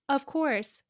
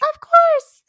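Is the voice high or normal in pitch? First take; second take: normal; high. First: It is said at a normal pitch. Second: It is said an octave higher.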